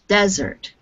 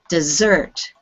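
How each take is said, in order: First: The stress is on the first syllable. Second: The stress is on the second syllable. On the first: An area of very dry land. "desert with the stress on the first syllable" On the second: Something sweet eaten after a meal. "pronounced dessert with the stress on the second syllable"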